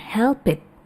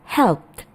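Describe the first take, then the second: First: The word ends with an extra 'id' syllable. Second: The word ends with a short 't' sound. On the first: The speaker calls it wrong. "bukan help it" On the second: The speaker calls it right. "seperti T di belakang"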